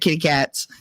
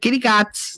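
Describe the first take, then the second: First: It is pronounced in the ordinary standard way. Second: It is pronounced with a childish mispronunciation. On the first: This is how the word is normally said. "instead of kitty cats" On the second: This is how a child said it. "We had kitty cats instead of"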